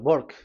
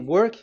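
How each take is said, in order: First: It begins with a B-like sound, Indian style. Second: It begins with a normal W sound.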